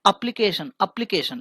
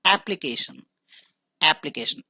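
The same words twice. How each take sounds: First: एप्लीकेशन with a closed e opening, higher; mock the mistaken एप्लीकेशन; teacher imitates what thousands say; imitating the common error. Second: एप्लीकेशन opening with the open ae of "apple"; एप्लीकेशन with the first vowel open, as in cat; teacher corrects to the right form; correct pronunciation. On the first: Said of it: "कई हजारों लोग कहते हैं". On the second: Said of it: "लेकिन वो एप्लीकेशन नहीं है". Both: Shown as a demonstration.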